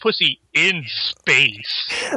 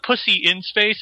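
First: The words "in space" are strongly emphasized. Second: The words "in space" get no special emphasis.

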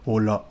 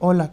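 First: It is said in an ordinary, unchildlike voice. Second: It is said in a soft, childlike voice.

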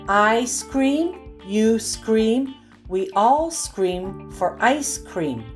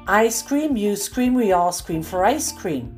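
First: The sentence is read at a slow pace. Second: The sentence is read at a faster pace. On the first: "I'll read each one slowly" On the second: "the second time a bit faster"

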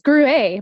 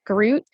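First: The final T sound is silent. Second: The final T sound is pronounced. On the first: The speaker calls it right. "then why do they have a T on the end of it?" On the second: The speaker calls it wrong. "I said Gruet, like G-R-U-E-T"

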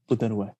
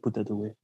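First: It is said in a plain, serious voice. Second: It is said with a heavy foreign accent. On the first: The speaker calls it wrong. "not like that serious" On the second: The speaker calls it right. "But like an accent"

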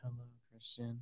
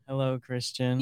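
First: It is said quietly. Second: It is said loudly.

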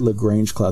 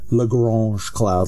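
First: Lagrange is pronounced in a plain English way. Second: Lagrange is pronounced in a French-sounding way. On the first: "they don't say Lagrange cloud" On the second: "they say Lagrange cloud, like they're French or something"

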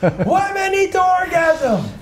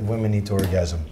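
First: It is said louder still. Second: It is said at a normal, quiet volume.

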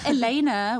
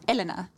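First: The stress is on the second syllable. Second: The stress is on the first syllable. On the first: The speaker calls it wrong. "which I think I get the most, is emphasis on the second E" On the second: The speaker calls it right. "it's meant to be emphasis on the first E"

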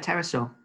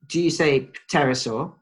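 First: The word begins with a plain T sound. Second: The word begins with a pronounced P sound. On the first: "Usually go with the silent P" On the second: "do you say pterosaur? Or do you... go with the silent P?"

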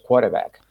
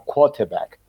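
First: It is said in an American accent with soft r. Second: It is said in a British accent without the r.

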